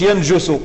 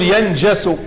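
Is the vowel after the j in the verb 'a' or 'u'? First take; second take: u; a. First: The vowel after the j is u. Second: The vowel after the j is a. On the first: The speaker calls it wrong. "ما تقولش ينجس" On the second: The speaker calls it right. "تقول ينجس، فالكسرة يكون المضارع مفتوحا"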